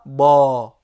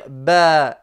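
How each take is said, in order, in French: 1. La voyelle est un 'ah' ouvert, à la française. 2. La voyelle est antérieure, plus proche de 'eh'. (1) "et non pas ba" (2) "nous allons dire ba"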